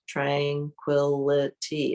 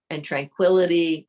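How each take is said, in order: First: Tranquility slowly spelled out as tran-qui-li-ty; slow, syllable by syllable. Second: Said in the usual way. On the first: Shown as a demonstration. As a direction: stretch Tranquility out, one clear beat per syllable. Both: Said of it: "tranquility has a lot of syllables".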